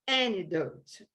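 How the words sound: American accent, with the t barely pronounced. "E o americano vai falar antidote"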